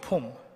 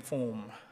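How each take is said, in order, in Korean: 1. 평평하게 한국식으로 발음했어요. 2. 혀를 굴려서 영어식으로 발음했어요. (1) "우리말로 우리식으로 발음하면 폼이죠" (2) "제가 좀 굴려서 form 그랬는데"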